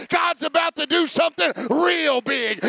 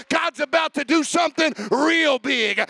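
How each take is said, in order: The two takes are said the same way.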